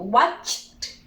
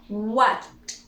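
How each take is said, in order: First: "Watched" drawn out, CH then separate T; careful final T. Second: "Watched" with CH running into a faint T; difficult final T. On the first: Teacher retrying the difficult word, careful final T. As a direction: carefully release a T after the CH in "Watched". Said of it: "you pronounce the watched". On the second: Teacher finding that one difficult, difficult final T. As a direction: attempt the tricky CH-T ending of "Watched". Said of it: "that one is difficult". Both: Shown as a demonstration.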